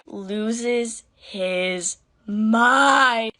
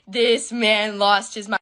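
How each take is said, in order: First: Loses his mind drawn out very slowly; stress on mind. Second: This man lost his mind, slow and emphatic; stress on This. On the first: Telling how her dad reacted, slow stressed. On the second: Retelling her dad's fury, emphatic slow stress. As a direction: lean on This man. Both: Real, not acted.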